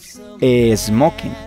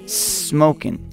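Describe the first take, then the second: First: An extra vowel sound comes before the s. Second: The word starts directly with the s sound. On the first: The speaker calls it wrong. "don't say smoking" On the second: The speaker calls it right. "say smoking"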